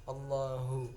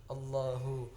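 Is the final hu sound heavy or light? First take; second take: heavy; heavy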